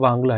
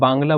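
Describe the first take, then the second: First: The word begins with a W sound. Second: The word begins with a B sound. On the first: The speaker calls it right. "But ये वांगला है" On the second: The speaker calls it wrong. "इसको कई जगह बांग्ला बोलते हैं"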